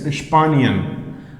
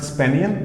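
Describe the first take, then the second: First: The word begins with an 'sh' sound. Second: The word begins with a plain 's' sound. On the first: The speaker calls it right. "S P is pronounced as Sp. S C H and P" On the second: The speaker calls it wrong. "not Spanian"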